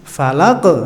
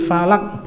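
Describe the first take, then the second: First: The final q is released with a bouncing echo. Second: The final q is cut off without a bounce. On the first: The speaker calls it right. "Falaq mantul" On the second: The speaker calls it wrong. "bukan gitu"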